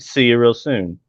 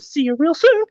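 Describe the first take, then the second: First: It is said in his normal voice. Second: It is said in a Mickey Mouse voice.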